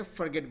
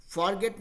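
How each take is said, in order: First: फॉरगेट said 'fur-GET', short first vowel; फॉरगेट with reduced 'fur'. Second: फॉरगेट with a long open vowel in the first syllable; फॉरगेट with full 'for'. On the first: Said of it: "फॉरगेट बोलेंगे". (फॉरगेट को 'फर-गेट' जैसे बोलें) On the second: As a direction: say फॉरगेट as spelled, 'FAR/FOR-get'. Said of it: "फॉरगेट नहीं बोलेंगे". (फॉरगेट, पूरे 'फॉर' के साथ) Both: Shown as a demonstration.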